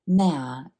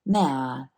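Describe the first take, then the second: First: The question word is squeezed into one syllable. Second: The same.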